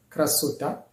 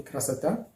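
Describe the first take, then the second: First: "krasota" with a clear O in the middle; spelling pronunciation. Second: "krasata" with "sa" in the middle; O read as A. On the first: Teacher shows how the word is written, "krasota" with the O sounded. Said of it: "on écrit krasota". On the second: Teacher shows how the word is read, "krasata" with A for O. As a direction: turn the written O into A in "krasata". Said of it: "mais on lit krasata". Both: Shown as a demonstration.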